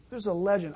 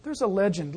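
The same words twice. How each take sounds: First: Weight on the word "legend", said firm and falling; "legend" stressed to mark doubt. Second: Said in the usual way. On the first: Shown as a demonstration. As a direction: lean into "legend" to flag it as a story. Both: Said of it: "I stress legend".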